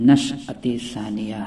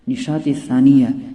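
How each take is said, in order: First: The first word is said as 'nash'at'. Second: The first word is said as 'nishat'. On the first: The speaker calls it right. "सही तलफ़ुज़ उसका नशअत सानिया है" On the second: The speaker calls it wrong. "ये गलत तलफ़ुज़ है"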